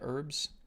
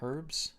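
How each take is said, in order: First: The word is said a non-British way. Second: The word is said the British English way. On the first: The speaker calls it wrong. "I don't say herbs" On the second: The speaker calls it right. "I basically use the English term of herbs"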